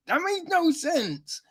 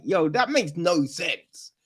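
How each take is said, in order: First: That makes no sense said high and falling; pitched up. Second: Said in the usual way. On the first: Shown as a demonstration.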